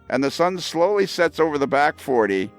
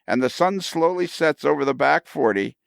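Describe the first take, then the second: Both takes have the same delivery.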